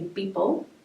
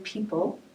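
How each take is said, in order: First: The word begins with a B sound. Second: The word begins with a P sound. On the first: "they would say beeple" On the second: "instead of saying people"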